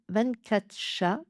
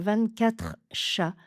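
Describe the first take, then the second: First: The R in quatre is not pronounced. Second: The R in quatre is clearly pronounced. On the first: The speaker calls it right. "enlevez le R" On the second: The speaker calls it wrong. "plutôt que"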